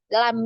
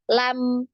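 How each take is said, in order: First: The final m is cut off abruptly. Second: The final m flows for about one beat. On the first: The speaker calls it wrong. "Jadi bukan cuma dibaca lam yalid" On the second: The speaker calls it right. "ini harus ada aliran suara"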